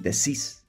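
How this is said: It is said with an s sound, Latin American style.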